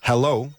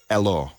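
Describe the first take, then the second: First: The word begins with a clear h sound. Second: The word begins without any h sound. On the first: "So hello would become" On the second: "we also eat H's at the beginning of words"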